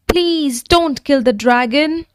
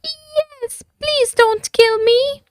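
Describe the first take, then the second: First: Higher pleading plea; begging. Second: Very high, trembling dragon voice; a terrified little creature begging; quaking. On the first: Jake begging the knight to spare the dragon. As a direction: beg the knight to spare him. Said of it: "begged Jake". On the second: The frightened dragon begging the knight, quaking. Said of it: "quaked the dragon". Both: A narrator's reading.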